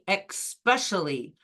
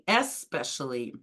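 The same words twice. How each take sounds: First: It begins with an 'ex' sound, like expect. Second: It begins with an 'es' sound, no k. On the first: The speaker calls it wrong. "People say especially. ... Don't be fooled by this word by comparing it to expect or exception" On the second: The speaker calls it right. "They should say especially"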